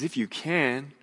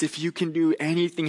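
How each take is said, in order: First: "can" leaned on, echoed back higher; stress on can. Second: Higher and quicker, pleading; desperate father. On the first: Jesus echoing the father, leaning on "can". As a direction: throw "can" back with a lift. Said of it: "To which Jesus responds". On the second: Father begging Jesus for his son, quick high plea. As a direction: rush the plea out, a touch higher. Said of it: "this father says to Jesus". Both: Retold or imitated.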